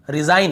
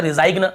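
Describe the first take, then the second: First: Said in the usual way. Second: "रिजाइग्न" with the G sounded before n; wrong pronunciation. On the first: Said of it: "यहाँ पर भी रिजाइन". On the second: Shown as a demonstration. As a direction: say "रिजाइग्न" as re-zai-gna. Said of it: "ऐसे नहीं पढ़ रहे".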